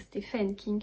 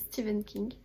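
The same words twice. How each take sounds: First: The name is pronounced letter by letter as spelled. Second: The name is pronounced the usual spoken way. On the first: "ça s'écrit Stephen King" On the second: "mais ça se dit Stephen King"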